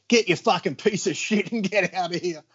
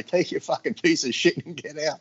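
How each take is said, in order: First: Higher, heated telling-off of the salesman; imitating a boss kicking out a salesman; mock angry dismissal. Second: Said in the usual way. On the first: Joe throwing out salesman. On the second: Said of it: "he says to the guy".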